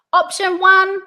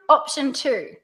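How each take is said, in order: First: Loud, high "one" left open; pitch up. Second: "two" falls to close; pitch down. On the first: Coach models the first option, pitch up. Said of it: "Pitch goes up". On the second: Coach models the second option, pitch down. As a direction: bring "two" down, settling the choice. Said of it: "pitch goes down". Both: Shown as a demonstration.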